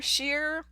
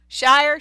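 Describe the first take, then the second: First: "Shire" said softer as "sheer"; "Shire" quietly with a short "sheer"; trying pronunciations. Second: "Shire" said loud as "shy-er"; "Shire" rhymed with fire, tried out loud; trying pronunciations. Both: Shown as a demonstration. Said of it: "which one it is".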